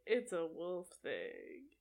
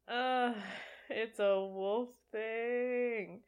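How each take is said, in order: First: Slow mock Jacob line. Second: Slow deadpan repeat. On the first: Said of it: "that line of him saying". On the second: Shown as a demonstration. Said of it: "I'm glad that is what they kept".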